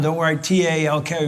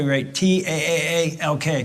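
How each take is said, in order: First: Said in the usual way. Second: TAAALK drawn out on the A; stretched taaalk. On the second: Shown as a demonstration.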